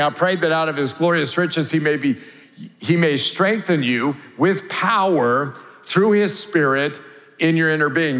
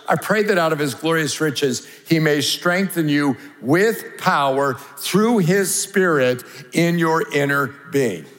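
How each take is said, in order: No difference in how they are said.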